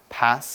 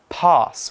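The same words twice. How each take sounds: First: The word is said in an American accent. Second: The word is said in a British accent. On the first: "in America, they say pass" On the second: "people with certain British accents and in other parts of the world might say pass"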